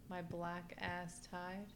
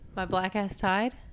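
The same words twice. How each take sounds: First: It is said at a normal pace. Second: It is said a little faster.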